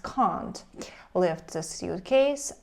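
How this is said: Can't is said with a British vowel.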